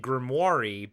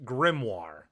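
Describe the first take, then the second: First: The word is said in an odd pronunciation. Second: The word is said in the standard pronunciation. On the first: The speaker calls it wrong. "he pronounces it a grimoire" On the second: The speaker calls it right. "but it's pronounced grimoire"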